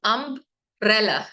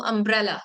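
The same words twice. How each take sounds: First: umbrella broken in two as "अम्ब... रेला"; split into syllables. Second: Said in the usual way. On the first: Shown as a demonstration. Teacher showing two syllables to learners, umbrella split by a pause. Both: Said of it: "टू syllables हैं".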